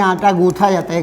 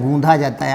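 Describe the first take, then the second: First: गूंथा said with aspirated th, the wrong way; गूंथा with th, as locals say it; wrong form गूंथा. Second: गूंधा with dh, the correct way; correct form गूंधा. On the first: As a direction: say गूंथा with a breathy th sound. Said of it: "हमारे वहाँ महिलाएं बोलती हैं". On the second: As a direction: stress the dh in गूंधा. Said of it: "आटा क्या होता है?". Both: Shown as a demonstration.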